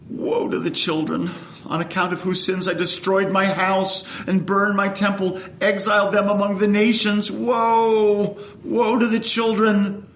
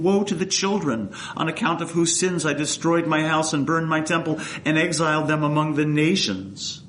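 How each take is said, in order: First: It is read with passion and pathos. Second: It is read plainly, without much passion.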